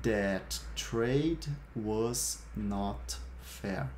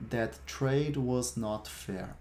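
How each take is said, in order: First: Very slow, stretched-out sentence for learners; slow model sentence. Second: Said in the usual way. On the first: Shown as a demonstration. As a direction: draw out every word clearly. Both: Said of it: "Eu vou repetir cada uma das frases".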